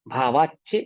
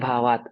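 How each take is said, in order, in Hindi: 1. यह शब्द जुड़ी हुई 'ch' ध्वनि पर समाप्त होता है। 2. यह शब्द अलग 't' ध्वनि पर समाप्त होता है। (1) "जब उच्चारण करते हैं तब संधि विच्छेद नहीं करते" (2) "जब संधि विच्छेद करेंगे तो ता पढ़ेंगे"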